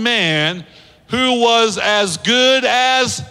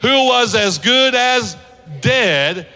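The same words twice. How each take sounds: First: Drawn-out lead-in. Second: Congregation call. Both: Shown as a demonstration. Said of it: "let's say it together".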